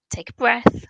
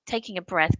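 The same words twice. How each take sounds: First: Whispered breath cue. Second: Said in the usual way. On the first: Shown as a demonstration. Host showing listeners how to pause, whispered. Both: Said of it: "great what you showed there".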